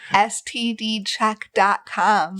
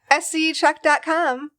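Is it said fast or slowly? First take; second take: slowly; fast. First: It is said slowly and clearly. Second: It is said fast and blurred.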